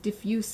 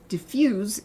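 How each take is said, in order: First: It has the adjective pronunciation of the word. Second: It has the verb pronunciation of the word. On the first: It describes something spread out. "Diffuse is the adjective" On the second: It names the action of spreading out. "Diffuse is the verb"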